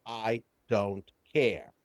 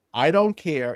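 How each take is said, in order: First: Very slow, low and soft; numb indifference. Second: Said in the usual way. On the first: Retold or imitated. Client shutting feelings out, numb and slow. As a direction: drag it out quietly, lower than usual.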